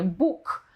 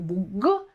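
First: The final consonant is voiceless, like k. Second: The final consonant is voiced, a full g. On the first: The speaker calls it right. "to mówimy właśnie Bóg" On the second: The speaker calls it wrong. "to jest hiperpoprawność i jest to w języku polskim błąd"

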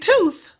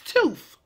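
First: The word is said the standard way. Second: The word is said the dialect way. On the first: "We are not saying tooth" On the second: "Did you catch that? It's tooth"

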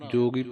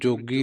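First: The word is said softly. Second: The word is said forcefully. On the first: The speaker calls it right. "ਪੋਲਾ ਕਹਿਣਾ ਹੈ" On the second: The speaker calls it wrong. "ਨਹੀਂ ਕਹਿਣਾ"

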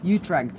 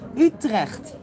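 First: The name is said with an American English accent. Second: The name is said with a Dutch accent.

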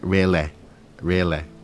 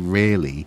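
First: It is said in a local Nottingham accent. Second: It is said in a neutral, standard accent. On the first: "it's like really, apparently" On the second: "if you're going to say really"

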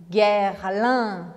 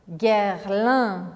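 Both takes have the same delivery.

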